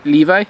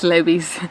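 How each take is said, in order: First: LEVI as "LEE-vye"; Levi with long ee, then "vye"; English pronunciation. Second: LEVI'S as "LEH-bees"; Levi's with short e and "bees"; Spanish pronunciation. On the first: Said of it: "I'm gonna say it in English". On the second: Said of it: "how they say it in Spanish". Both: Shown as a demonstration.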